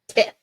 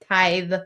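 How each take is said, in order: First: The vowel is short, as in 'it'. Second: The vowel is long, as in 'ice'. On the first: The speaker calls it wrong. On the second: The speaker calls it right. "that sounds better than tith"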